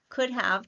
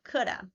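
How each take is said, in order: First: 'Have' is said in full. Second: 'Have' is reduced to a schwa. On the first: "Could have turns into coulda" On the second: "Have turns into a schwa"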